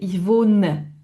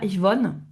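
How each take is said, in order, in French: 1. Le e final de wohne est clairement prononcé. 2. Le e final de wohne est omis. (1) "on le prononce bien le e" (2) "C'est pas ich wohne"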